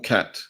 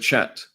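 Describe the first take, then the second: First: The word begins with a 'k' sound. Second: The word begins with a 'ch' sound. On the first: "It could be cat" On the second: "I'm pronouncing it chat"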